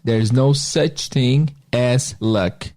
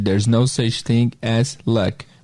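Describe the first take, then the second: First: It is said slowly and carefully. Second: It is said at normal speed.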